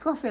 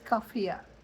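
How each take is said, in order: First: The word ends on a plain 'ee' vowel. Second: The word ends with an extra 'ah' vowel. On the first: The speaker calls it right. "but it's coffee like Chelsea" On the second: The speaker calls it wrong. "I feel tempted to pronounce it coffea"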